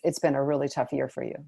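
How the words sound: The voice falls at the end. It is offered as a statement. The speaker calls it right. "the second one as a statement"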